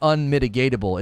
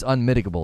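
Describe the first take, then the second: First: The word has an extra "ta" syllable. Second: The word has no extra "ta" syllable. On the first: The speaker calls it wrong. "It's not unmitigatable" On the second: The speaker calls it right. "It's unmitigable. There's no T"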